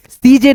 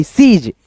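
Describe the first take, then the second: First: सीजे with an extra "e" at the end; wrong reading. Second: सीज said as a single syllable "seej"; correct reading. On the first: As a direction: say सीजे as "see-jay", the wrong way. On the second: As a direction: read सीज correctly, no final vowel. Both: Shown as a demonstration. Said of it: "सीजे नहीं".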